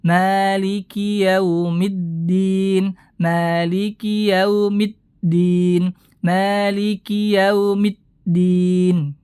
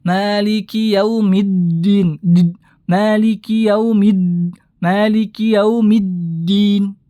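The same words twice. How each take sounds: First: Yaumiddin with the d stopped sharply, slowly; dal dengan suara tertahan. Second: Yaumiddin with the d let through with air; dal mengalir tanpa syiddah; flowing dal error. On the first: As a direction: hold the d shut cleanly. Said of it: "Suara seketika itu berhenti". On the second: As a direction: demonstrate a leaky dal in din. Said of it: "seakan-akan mengalirkan huruf dal". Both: Shown as a demonstration.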